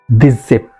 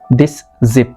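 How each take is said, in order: First: The two words run together without a break. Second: There is a short break between the words. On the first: "there is some sort of continuity in my speech" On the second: "if I say it separately, there is some sort of pause"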